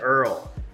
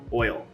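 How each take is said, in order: First: It is said in a Southern US accent. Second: It is said in a standard accent.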